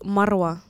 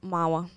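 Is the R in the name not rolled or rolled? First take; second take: rolled; not rolled. First: The R in the name is rolled. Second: The R in the name is not rolled. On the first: This is the name's original pronunciation. "you meant to roll the R" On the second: This is a simplified form for Western listeners. "But I tell them Mawa"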